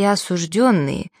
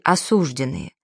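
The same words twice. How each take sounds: First: The word is said with a 'yo' vowel. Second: The word is said with an 'e' vowel. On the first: The speaker calls it right. "никогда бы не превратились" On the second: The speaker calls it wrong. "таких мутантов"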